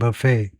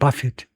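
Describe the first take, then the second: First: The stress is on the second syllable. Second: The stress is on the first syllable. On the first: It names a meal where people serve themselves. "명사는 뒤에 액센트가 있고" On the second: It means to strike repeatedly and forcefully. "buffet 앞에입니다"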